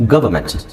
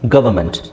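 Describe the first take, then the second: Both takes have the same delivery.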